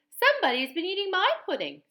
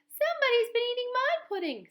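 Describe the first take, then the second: First: It is said in a middle-sized voice. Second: It is said in a wee little voice.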